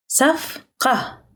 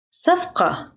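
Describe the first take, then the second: First: صفقة split into two separate syllables. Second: Said in the usual way. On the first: Shown as a demonstration. Teacher breaking up a new word for learners, syllable by syllable.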